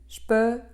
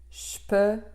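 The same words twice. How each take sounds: First: The plosive consonant is held with more force. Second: The fricative consonant is given more force. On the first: The speaker calls it right. "j'pe au lieu de" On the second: The speaker calls it wrong. "au lieu de j'pe"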